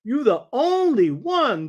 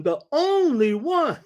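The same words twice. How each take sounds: First: Slow, high emphasis on only; emphatic quote. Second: The only one again, slow and high, only stretched; only drawn out and raised in the only one; repeated emphasis. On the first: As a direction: lean hard on only in you the only one. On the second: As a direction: hammer only a second time in the only one. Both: Retold or imitated. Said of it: "he put a lot of emphasis on this".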